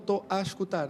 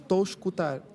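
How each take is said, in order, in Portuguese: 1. A palavrinha 'a' é claramente pronunciada. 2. A palavrinha 'a' é omitida. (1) "supostamente devia ser" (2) "nós muitas vezes suprimimos esse A"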